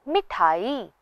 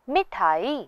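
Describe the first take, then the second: Both takes have the same delivery.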